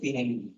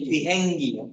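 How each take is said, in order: First: The word begins with a voiced b sound. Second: The word begins with a breathy p sound. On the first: "আমাদের উচ্চারণ অনুযায়ী আমরা কি বলবো?" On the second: "Korean তো বললাম এটা ফ উচ্চারণ করে"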